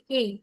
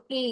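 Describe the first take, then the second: First: Said in the usual way. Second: "এ" in phonic style, not the letter name; phonic sound. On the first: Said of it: "letter সাউন্ডে এটাকে পড়েছি এ". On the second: Shown as a demonstration. Teacher shows the class how phonics reads it, "এ" as a phonic sound. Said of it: "phonic sounds এটাকে আমরা এ পড়বো না".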